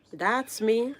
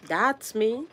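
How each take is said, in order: Both takes have the same delivery.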